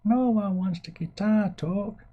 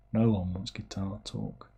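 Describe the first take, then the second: First: Very high, slow silly voice; mock audience voice. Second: Said in the usual way. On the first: Streamer mimics viewers refusing guitar talk, silly high voice. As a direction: draw it out in a put-on falsetto.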